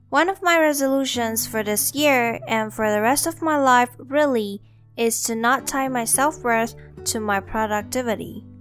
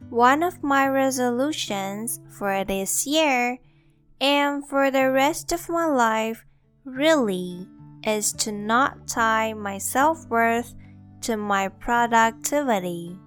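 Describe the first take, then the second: First: It is said at normal speed. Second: It is said slowly.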